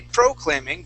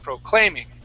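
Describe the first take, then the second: First: The stress is on the first syllable. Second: The stress is on the second syllable. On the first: The speaker calls it wrong. "you're emphasizing the very beginning" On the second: The speaker calls it right. "but say proclay, proclaiming"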